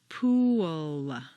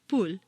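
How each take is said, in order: First: It is drawn out into three syllables with a w-glide. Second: It is said as one short syllable. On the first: The speaker calls it right. "you need to say three syllables" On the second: The speaker calls it wrong. "if you say it this way"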